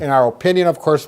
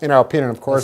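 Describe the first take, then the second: First: It is said warmly, with a smile. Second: It is said plainly, without a smile.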